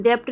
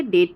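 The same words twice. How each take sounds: First: "डेप्ट" with a p-like b before the t; misreading "डेप्ट" with nothing left silent; silent b sounded. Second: Said in the usual way. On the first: Shown as a demonstration. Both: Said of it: "डेप्ट ना पढ़ के डेट पढ़ा जाता है".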